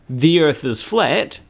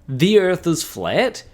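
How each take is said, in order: First: It ends with a falling statement tone. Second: It ends with a rising question tone.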